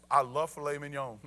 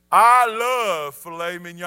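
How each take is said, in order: First: Said in the usual way. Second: Booming, drawn-out proclamation; loud, relished declaration. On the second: Real, not acted. Preacher confesses his favorite food to congregation, booming. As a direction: belt it out, stretching the first words.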